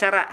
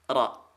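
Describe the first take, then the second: First: The ra is pronounced thin and light. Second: The ra is pronounced thick and heavy. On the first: The speaker calls it wrong. "jangan dibaca" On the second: The speaker calls it right. "ra pastikan dibaca tebal"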